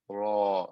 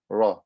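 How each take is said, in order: First: The vowel is stretched out long. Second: The vowel is cut short, not stretched. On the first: The speaker calls it right. "I have to stretch them" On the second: The speaker calls it wrong. "I would just say"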